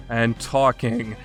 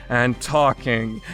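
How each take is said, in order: Both takes have the same delivery.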